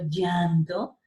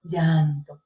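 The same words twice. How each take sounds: First: Llanto drawn out very slowly; slow demo. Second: Llanto said lower and clearly; demo word. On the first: Teacher demonstrates the ll in llanto slowly. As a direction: stretch the ll in llanto. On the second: Teacher repeats llanto for the class. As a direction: hold the ll in llanto. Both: Shown as a demonstration. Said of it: "date cuenta que el aire está por ahí".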